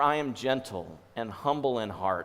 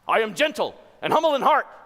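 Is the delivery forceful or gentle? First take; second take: gentle; forceful. First: It is said softly and gently. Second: It is said quickly and forcefully. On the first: The speaker is inviting and kind. The speaker calls it right. "I know I'm changing the inflection in my voice" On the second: The speaker is commanding and demanding. The speaker calls it wrong. "speedily and forcefully"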